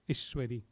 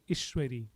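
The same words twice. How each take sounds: First: The first vowel is kept short. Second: The same.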